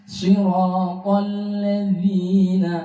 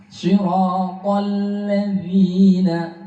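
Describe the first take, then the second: Both takes have the same delivery.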